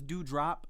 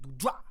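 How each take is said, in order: First: The word ends with a clear final p sound. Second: The word is slurred and the final p is dropped.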